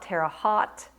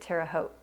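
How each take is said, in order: First: It is pronounced the way outsiders say it. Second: It is pronounced the way locals say it. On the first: This is how people from elsewhere say it. "I hear some of you, when you're making videos, you call it" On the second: This is how people from the area say it. "in Indiana, we pronounced it"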